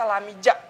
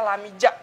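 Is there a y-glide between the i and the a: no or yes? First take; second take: yes; yes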